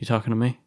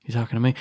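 No difference in how they are said.

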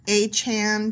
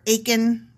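First: The name sounds like '8-chan', with a 'ch' sound. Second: The name rhymes with 'bacon', with a 'k' sound. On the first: "that sounds too close to 8-chan" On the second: "rhymes with bacon"

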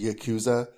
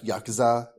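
First: The 'ku' syllable is stressed. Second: The 'ku' syllable is reduced.

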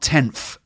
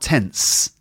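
First: The word ends with an f sound. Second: The word ends with an s sound. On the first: "not tenth, ... like with a F sound" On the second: "and not tense either"

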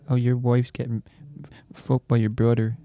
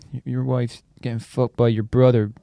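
First: It is said with little energy. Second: It is said with more gusto.

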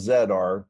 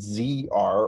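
First: The letter Z is said as zed. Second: The letter Z is said as zee.

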